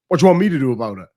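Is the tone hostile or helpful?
hostile. It sounds dismissive and confrontational.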